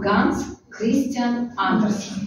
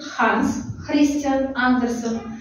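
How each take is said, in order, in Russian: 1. Имя произносится в привычной русской форме. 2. Имя произносится ближе к датской форме. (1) "ближе к нам Ганс Христиан Андерсен... такой вариант будет правильный" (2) "ближе, если будем произносить к датам, то есть датчанам"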